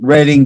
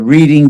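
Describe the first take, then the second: First: The first vowel sounds like 'red'. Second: The first vowel sounds like 'reed'. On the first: This is how the locals say the name. "they call it Reading" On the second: This follows the way the name is spelled. "I say uh, Reading because it's spelled"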